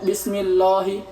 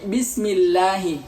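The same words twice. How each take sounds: First: The L is heavy, with rounded lips. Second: The L is thin, with open lips. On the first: The speaker calls it wrong. "saya tidak buka bibir saya ... pasti akan kebaca mufakhamah" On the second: The speaker calls it right. "tapi bismillahi"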